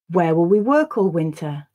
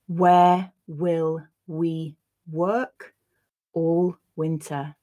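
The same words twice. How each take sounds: First: The sentence is read at normal conversational speed. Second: The sentence is read slowly and carefully. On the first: "then I'll read it once at a more natural pace" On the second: "I'll read the sentence once slowly"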